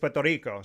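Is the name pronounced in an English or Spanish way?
Spanish. The name is said with Spanish pronunciation. The speaker calls it right. "It's Puerto Rico. So, I mean, that's how I want to say it"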